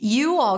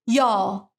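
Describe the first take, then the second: First: It is said slowly as two separate words. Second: It is said fast, squeezed into one syllable.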